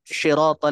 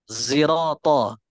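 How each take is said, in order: First: The first sound is a sh sound. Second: The first sound is a z-like sound. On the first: No accepted reading uses this. The speaker calls it wrong. "Pakai shin" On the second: This is an accepted variant reading. The speaker calls it right. "membaca dengan huruf zai campuran sin"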